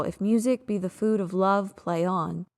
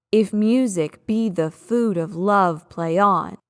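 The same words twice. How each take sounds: First: Said in the usual way. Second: "music", "food", "love" and "on" punched hard, "If", "be", "the", "of" swallowed; overemphasized iambs. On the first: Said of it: "I would say it more natural". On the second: Shown as a demonstration. Teacher exaggerating the marked stresses to test the scansion. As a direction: ham up every loud syllable of the beat. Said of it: "you are going to overemphasize anything that you have marked as a loud syllable".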